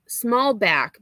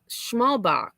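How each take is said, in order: First: The name starts with 'sm' and ends in 'k'. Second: The name starts with 'shm' and ends in 'ch'. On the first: This is how others said the name. The speaker calls it wrong. "they were saying small Smallback" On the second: This is how the name is actually spelled and said. The speaker calls it right. "but it's Schmalbach. Like B A C H is Bach"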